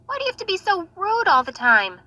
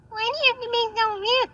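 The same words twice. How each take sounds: First: Scolding. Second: Exasperated scolding. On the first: Sister scolding Natasha. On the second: Repeat, higher. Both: Acted.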